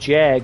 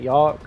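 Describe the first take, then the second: First: The word begins with a J sound. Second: The word begins with a Y sound. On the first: The speaker calls it wrong. "that's not how you say it" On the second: The speaker calls it right. "It's Y"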